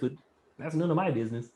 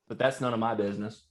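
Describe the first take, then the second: First: It is said in a Kermit the Frog voice. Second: It is said in his normal voice.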